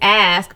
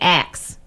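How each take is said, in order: First: The s sound comes before the k sound. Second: The k sound comes before the s sound. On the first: "it's ask" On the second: "they're pronouncing it axe"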